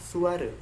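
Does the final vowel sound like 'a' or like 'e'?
e. The final vowel is a low, 'e'-like sound. This is the Malay pronunciation.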